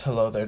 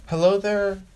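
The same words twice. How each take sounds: First: Said in the usual way. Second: Hello there, lifted higher with bold confidence; confident greeting. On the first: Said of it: "Hello there" shows your confidence". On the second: Shown as a demonstration. Showing off the greeting to the audience, confidently. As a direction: announce Hello there like you own the room. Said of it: "shows your confidence".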